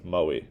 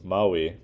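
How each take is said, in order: First: The vowel is raised and reduced. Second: The vowel is pronounced full and unreduced. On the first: "to Maui" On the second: "reduces from Maui"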